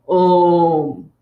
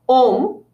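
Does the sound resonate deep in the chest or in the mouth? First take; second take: chest; mouth. First: The sound comes from the throat, resonating in the chest. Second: The sound comes from the front of the mouth. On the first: The speaker calls it right. "Now that is an Om" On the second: The speaker calls it wrong. "instead of saying Om, as in, did you go home?"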